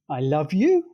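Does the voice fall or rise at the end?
rise. The pitch rises at the end. It is an ironic questioning retort. "using a rising pitch contour, said as a question"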